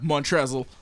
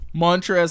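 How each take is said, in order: First: The name ends with a clear L sound. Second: The name ends without an L sound. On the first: "I'm going to call him Montrezl on purpose" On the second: "How do you have a silent L?"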